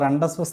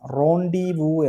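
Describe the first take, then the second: First: The word is said with its consonants pronounced. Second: The word ends in a vowel, consonants silent. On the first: The speaker calls it wrong. "അത് റണ്ടസ്പസ് എന്നല്ല" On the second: The speaker calls it right. "അതിന്റെ pronunciation റോണ്ടിവു എന്നാണ്"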